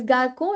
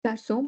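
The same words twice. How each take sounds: First: "garco" with a k sound in the middle; hard c error. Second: "Garçon" with an s sound for the ç; soft c. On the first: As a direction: mispronounce it "garco", c as k. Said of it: "it's not a word". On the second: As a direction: say "Garçon" with a hissed s in the middle. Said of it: "we should pronounce it ka". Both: Shown as a demonstration.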